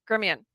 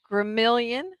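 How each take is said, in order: First: The name is said in a shorter, different form. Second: The name is said the way it is spelled. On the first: The speaker calls it right. "but it's pronounced Grimion" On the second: The speaker calls it wrong.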